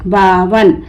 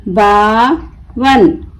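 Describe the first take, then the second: First: Said in the usual way. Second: बावन slowly split, long बा, pause, वन; broken into syllables. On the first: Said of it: "मिलाकर पढ़ें". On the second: Shown as a demonstration. Teacher breaking the word for learners, बा... वन with a gap. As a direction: pull बावन apart into बा and वन. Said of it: "तोड़ तोड़ कर पढ़ूंगी".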